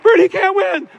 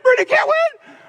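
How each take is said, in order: First: It is said as a flat, confident claim. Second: It is said in a begging, desperate tone. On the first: It is a claim that he will lose. The speaker calls it wrong. "that's why they say Bernie can't win" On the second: It is a fearful wish that he will lose. The speaker calls it right. "you got to change the tone. ... They're actually saying"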